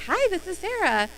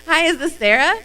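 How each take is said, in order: First: Bright, higher phone greeting with a flat statement; wrong greeting demo. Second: "Hi, is this Sarah?" with a clear upward question rise on "Sarah"; asking tune. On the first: Showing trainees the wrong way to greet a raffle winner, higher and bright. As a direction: say it like you are Sarah yourself. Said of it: "th-, no". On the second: Showing trainees the right phone greeting, rising question. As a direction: make "is" the lift and end on a question. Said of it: "Question mark". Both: Shown as a demonstration.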